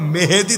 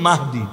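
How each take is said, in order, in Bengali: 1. নামটি Mehedi বলা হয়, তিনটি সিলেবল। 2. নামটি Mahdi বলা হয়, দুটি সিলেবল। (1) "মাহদি শব্দও বলতে পারে না" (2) "মূল উচ্চারণ কিন্তু মাহদি"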